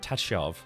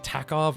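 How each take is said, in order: First: The middle consonant is a soft ch sound. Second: The middle consonant is a hard k sound.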